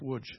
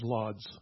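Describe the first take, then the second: First: The name is said in the Polish way. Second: The name is said in an anglicized way. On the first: The speaker calls it right. "but it's Łódź. It's pronounced that way" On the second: The speaker calls it wrong. "Maybe you know it as Lodz"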